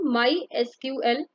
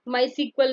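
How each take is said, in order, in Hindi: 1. SQL को तीन अलग-अलग अक्षरों के रूप में बोला जाता है। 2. SQL को शब्द "सीक्वल" के रूप में बोला जाता है। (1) "इसको हम माई एसक्यूएल प्रोनाउंस करते हैं" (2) "माई सीक्वल नहीं कहते"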